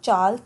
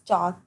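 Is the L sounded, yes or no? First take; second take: yes; no. First: The L is sounded before the K. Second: The L is silent before the K. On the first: The speaker calls it wrong. "not chalk" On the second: The speaker calls it right. "it's chalk"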